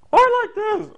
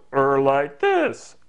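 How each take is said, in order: First: Loud, squeaky-high silly voice; sky-high, loud comic squeal; very high funny voice. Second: Slow, drawn-out silly voice; comic drawl near normal pitch; funny voice. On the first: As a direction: leap into a piercingly high goofy voice. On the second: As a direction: stretch it out in another goofy voice. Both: Shown as a demonstration. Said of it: "I'm now gonna talk like this".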